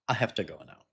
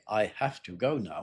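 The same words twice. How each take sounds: First: 'Have to' is reduced and linked together. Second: Each word is said separately and fully. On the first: The speaker calls it right. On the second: The speaker calls it wrong.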